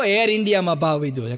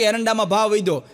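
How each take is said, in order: First: "એર ઇન્ડિયામાં" said as Air India, air and India split clearly; correcting it to "એર ઇન્ડિયામાં", the airline; correct reading. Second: "એરંડામાં" read as eranda, the castor crop, a misreading of the headline; misreading "એરંડામાં" as the crop word. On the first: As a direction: say "એર ઇન્ડિયામાં" as two words, air then India. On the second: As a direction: say "એરંડામાં" as e-ran-da-maan, as if about castor seed. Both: Retold or imitated. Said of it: "આ એરંડામાં ભાવ નથી વધ્યો".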